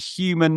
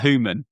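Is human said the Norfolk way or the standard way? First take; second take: standard; Norfolk. First: It is said in a standard, non-Norfolk way. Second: It is said with a Norfolk accent feature. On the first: "but I do I do say human" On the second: "not human"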